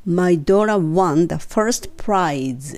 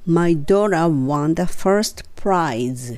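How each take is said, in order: Both takes have the same delivery.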